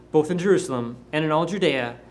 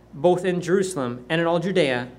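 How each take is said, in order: Both takes have the same delivery.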